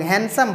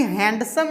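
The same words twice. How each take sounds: First: हैंडसम as "han-sum", no d; silent d. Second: हैंडसम with the d sounded, "hand-sum"; d wrongly pronounced. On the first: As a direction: drop the d from हैंडसम. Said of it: "हैंडसम बोलते हैं". (हैंडसम, ड की आवाज़ के बिना "हैनसम") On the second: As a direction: voice the d in हैंडसम before the s. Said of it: "हैंडसम नहीं बोलते". (हैंडसम में ड की साफ़ आवाज़) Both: Shown as a demonstration.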